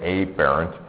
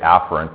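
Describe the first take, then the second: First: The word is said with an altered, distinct pronunciation. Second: The word is said in its usual casual way. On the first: This keeps it from being confused with a similar word. The speaker calls it wrong. "during lecture I want to make sure people can understand what I'm saying, so I say afferent" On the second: This is the everyday pronunciation. The speaker calls it right. "Usually we just say afferent"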